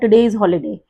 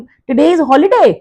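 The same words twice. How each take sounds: First: It is said plainly with a falling end. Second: It is said with more intonation, rising. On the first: It states that today is a holiday. "Teacher announce करेगा तो simple बोलेगा" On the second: It asks whether today is a holiday. "अगर आप पूछेंगे ... थोड़ा सा intonation ज्यादा हो गया"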